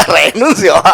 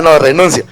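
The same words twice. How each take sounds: First: Giving up with a laugh through renuncio. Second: Said in the usual way. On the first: Real, not acted. Preacher losing his thread, laughing as he says renuncio. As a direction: say renuncio while laughing at himself.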